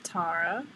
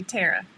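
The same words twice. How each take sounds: First: Low "Tara" as TAR-uh, tentatively rising; pronunciation attempt. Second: "Tara" as TAIR-uh, the Southern way; Southern pronunciation. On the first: Trying to pronounce a viewer's name, pronunciation attempt. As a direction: say "Tara" with an open AH, questioning. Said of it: "Is that even close?". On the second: Showing how a coach said it, Southern pronunciation. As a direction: say "Tara" Southern, with an AIR vowel. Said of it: "the Southern would be Tara". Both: Shown as a demonstration.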